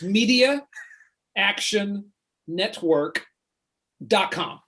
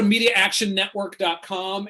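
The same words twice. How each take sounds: First: It is said slowly. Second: It is said fast.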